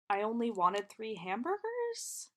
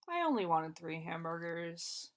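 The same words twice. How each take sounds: First: It sounds exasperated and insistent. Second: It sounds dismissive and offhand. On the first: The listener took the request far too seriously. "you took it way too seriously" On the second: It is not a big deal. "ugh, whatever. It's like not a big deal"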